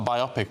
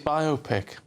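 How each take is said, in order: First: The word is divided as bi plus opic. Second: The word is divided as bio plus pic. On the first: The speaker calls it wrong. "Not a biopic, what's an opic?" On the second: The speaker calls it right. "Because it's a bio and a pic"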